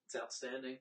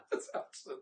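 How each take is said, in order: First: Said in the usual way. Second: Whispered. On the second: Real, not acted. Whispered after laugh.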